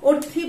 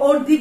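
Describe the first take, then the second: First: The middle consonant is a voiceless th sound. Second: The middle consonant is a voiced th sound. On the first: The speaker calls it wrong. "অর্থি বলি না" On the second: The speaker calls it right. "কিংবা অর্ধি বলি"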